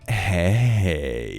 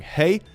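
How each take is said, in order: First: It is said in a drawn-out, drunken flirty way. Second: It is said as a plain, neutral greeting. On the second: It is just a greeting. "oh, greeting"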